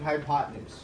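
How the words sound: The word is said smoothly blended together. "you're saying"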